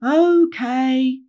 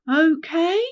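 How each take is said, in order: First: Loud, high, drawn-out assent; chorus it back like reluctant children; group reply. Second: High, rising, louder check; prompting. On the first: A narrator's reading. Wheelie Hogs all replying to Rainbow, loud drawn-out agreement. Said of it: "the Wheelie Hogs all replied". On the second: Acted. Rainbow asking the gang to agree, insistent rising prompt. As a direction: press the group for an answer.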